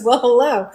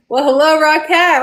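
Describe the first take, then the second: First: Said in the usual way. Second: Higher and louder happy hello; excited greeting. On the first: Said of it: "she says". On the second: Real, not acted. Host greets a dragon sister joining the chat, thrilled. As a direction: gush a big welcome. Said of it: "Oh my God".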